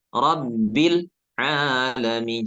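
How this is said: The l is cut off with a small break. The speaker calls it wrong. "Jangan terputus. Ada jeda sedikit seperti saktah"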